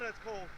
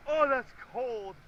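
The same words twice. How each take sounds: First: Said in the usual way. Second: Slow, drawn-out gasp of cold; in ice cold water. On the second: Real, not acted. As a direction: stretch it out, shivering.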